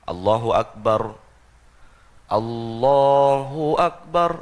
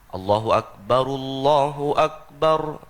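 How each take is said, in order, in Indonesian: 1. Takbir dipanjangkan perlahan dan dipisahkan. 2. Kedua takbir diucapkan menyambung dalam satu tarikan napas. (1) "Itu terlalu lambat" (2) "dua takbir Allahu Akbar Allahu Akbar itu digabung jadi satu"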